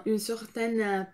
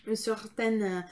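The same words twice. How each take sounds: The two takes are said the same way.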